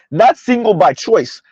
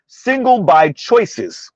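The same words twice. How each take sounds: First: NOT leaned on, slow and deliberate, "choice" singular; correcting the common phrase, hit "Not"; stress on not. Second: Very slow, "choices" drawn out plural; stress on choices. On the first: Reading the title wrong way, stress on "Not". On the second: Vlogger explaining title to viewers, slow pointed "choices". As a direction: spell out the real title word by word. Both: Shown as a demonstration.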